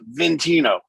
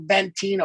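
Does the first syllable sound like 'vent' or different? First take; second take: different; like vent. First: The first syllable is not said like vent. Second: The first syllable is said like the word vent. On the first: It is the way the family says it. The speaker calls it right. "it's Ventino" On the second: It is read straight from the spelling. The speaker calls it wrong. "everybody goes, "Oh, Ventino." ... it's spelled vent"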